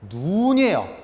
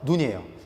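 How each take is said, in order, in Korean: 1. 모음을 길게 발음해요. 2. 모음을 짧게 발음해요. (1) "길게 발음하셔야 돼요" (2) "짧게 발음하셔서"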